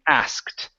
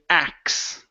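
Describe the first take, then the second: First: Both the k and the final t are pronounced. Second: The sounds are swapped to sound like axe. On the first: The speaker calls it right. "we need to pronounce the K and the T" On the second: The speaker calls it wrong. "the base form or the street form... I would not recommend"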